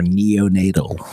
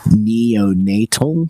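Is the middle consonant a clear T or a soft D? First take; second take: soft D; clear T. First: Said quickly with a soft D-like sound. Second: Said slowly with a strong, clear T sound. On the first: "when you say it quickly, it's going to be a softer D" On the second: "When you say it slowly, the T is going to be very strong"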